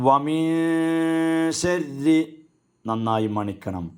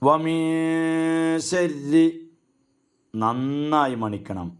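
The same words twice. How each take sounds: Both takes have the same delivery.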